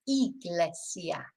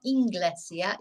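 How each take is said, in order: First: Iglesia said slowly with no n, ee-gle-sia; correct form. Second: Inglesia said with an extra n, in-gle-sia; wrong form. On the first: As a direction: model the right iglesia slowly. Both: Shown as a demonstration. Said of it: "doesn't have an N".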